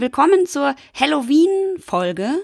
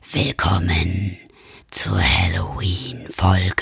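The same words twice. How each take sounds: First: It is said in a normal voice. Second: It is said in a spooky voice.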